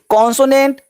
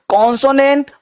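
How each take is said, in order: The two takes are said the same way.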